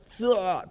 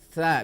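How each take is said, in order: First: The consonant is said heavy, tongue back raised. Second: The consonant is said light, tongue back flat. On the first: The speaker calls it wrong. "Tidak boleh sa" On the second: The speaker calls it right. "tapi sa, biasa saja lidahnya diluruskan"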